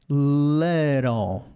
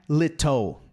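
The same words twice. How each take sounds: First: "little" very slow, T as a tap; flapped T. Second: "little" with a fully released T; hard T. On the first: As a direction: draw out "little" as "liii-rol". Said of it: "É little". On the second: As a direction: pronounce "little" as "lit-toh", no flap. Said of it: "Não é little". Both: Shown as a demonstration.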